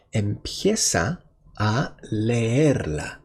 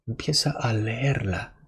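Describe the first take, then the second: First: Slow for learners. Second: Said in the usual way. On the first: Shown as a demonstration.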